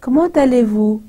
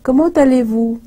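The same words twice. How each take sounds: The two takes are said the same way.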